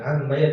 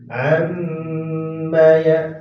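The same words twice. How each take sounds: First: The nasal m sound is cut short. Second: The nasal m sound is held long. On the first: The speaker calls it wrong. "jangan ammaya dasar salah" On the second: The speaker calls it right. "tapi ammaya am segitu"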